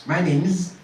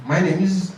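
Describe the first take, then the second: No difference in how they are said.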